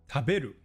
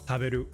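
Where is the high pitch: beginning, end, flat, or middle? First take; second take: middle; flat. First: The high pitch is on the middle syllable. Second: The pitch stays level across every syllable. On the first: "It's on the be in the middle" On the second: "or even just flat throughout"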